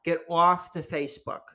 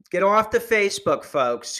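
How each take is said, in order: First: Nagging preachy lady, pitched up; annoying lady voice. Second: Higher, louder nagging lady; annoying lady voice, louder. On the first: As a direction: mimic a preachy documentary lady. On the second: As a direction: bark it like a preachy lecturer. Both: Retold or imitated. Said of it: "she sounds like, uh, super annoying".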